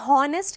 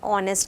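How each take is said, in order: First: The word begins with an audible h sound. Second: The word begins directly with a vowel sound. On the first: The speaker calls it wrong. "हम उसे हॉनेस्ट कहते हैं क्या, नहीं" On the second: The speaker calls it right. "ऑनेस्ट कहते हैं"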